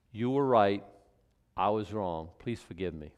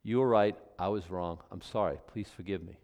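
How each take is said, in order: First: Sincere apology. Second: Soft, low, fading to a hush; humble and simple, nothing added; unqualified apology. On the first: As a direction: lay it down gently and mean it. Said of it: "That's an apology". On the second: Preacher modelling the unqualified apology, softly humble. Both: Shown as a demonstration.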